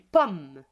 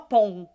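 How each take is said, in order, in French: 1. La voyelle est orale, suivie d'un « m » bien clair. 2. La voyelle est nasale, comme le son « on ». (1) "on dit pomme" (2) "on dit pas pom"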